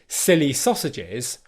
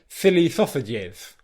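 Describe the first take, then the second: First: The S sounds are clear hissing sounds. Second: The S sounds are lisped with the tongue. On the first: The speaker calls it right. "instead of saying" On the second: The speaker calls it wrong. "I spoke with what was called a lisp"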